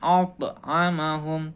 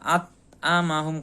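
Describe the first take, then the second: First: The t is released with a bouncing echo. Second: The t is held flat without a bounce. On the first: The letter is kept distinct. The speaker calls it right. "To-nya dipantulkan" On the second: The letter sounds like a different letter. The speaker calls it wrong. "tidak at'amahum. Kalau at'amahum berarti ini huruf ta"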